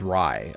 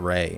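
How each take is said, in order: First: The word is said with a vowel unlike 'ray'. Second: The word is said like English 'ray'. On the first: The speaker calls it right. "It's Rai" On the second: The speaker calls it wrong. "It's not not Ray"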